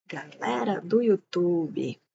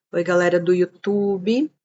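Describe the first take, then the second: First: Softer, slow, falling sing-song repeat; soft drawn-out echo. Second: Said in the usual way. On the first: Real, not acted. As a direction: echo the greeting quietly, stretching it out. Greeting YouTube viewers twice.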